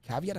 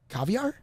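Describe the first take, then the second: First: "Caveat" said as KA-vee-at with a slight rise; careful "Caveat", ending in -at; correct caveat. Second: "Caviar?" said as KA-vee-ar, rising like a question; "Caviar?" asked, ending in -ar; mistaken caviar. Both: Retold or imitated. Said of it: "I'm like".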